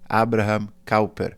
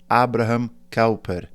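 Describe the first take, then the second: First: The name is said with Dutch pronunciation. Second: The same.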